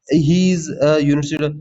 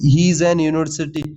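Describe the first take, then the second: First: Slow, careful "a university"; slow correct-form demo. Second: Slow, deliberate read of the wrong article; teacher spells out "an university" slowly; slow wrong-form demo. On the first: Teacher showing students the corrected sentence, slowly. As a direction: lay out "a university" word by word. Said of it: "यूनिवर्सिटी आ रहा है, वाई का sound". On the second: Teacher to exam students, reading the error slowly. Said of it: "तो यहाँ पर ए नहीं आएगा, एन आएगा". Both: Shown as a demonstration.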